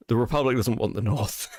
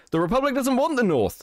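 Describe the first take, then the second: First: Said in the usual way. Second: The Republic doesn't WANT the North, high and insistent; emphatic high repeat. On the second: Real, not acted. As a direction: hammer it home with a raised voice.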